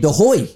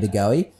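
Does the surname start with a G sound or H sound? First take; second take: H sound; G sound. First: The surname starts with an H sound. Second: The surname starts with a hard G sound. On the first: "It's Jordy De Hoy" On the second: "your name isn't pronounced Jordy De Goey"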